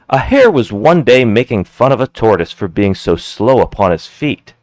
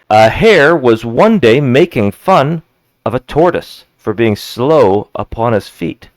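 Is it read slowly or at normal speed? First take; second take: normal; slowly. First: It is read at normal speed. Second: It is read slowly.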